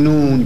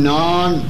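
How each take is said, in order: First: The vowel is a rounded oo sound. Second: The vowel is a long open aa sound. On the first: The speaker calls it wrong. "کجش میکنیم، نان رو میگیم نون" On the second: The speaker calls it right. "ما میگیم نان"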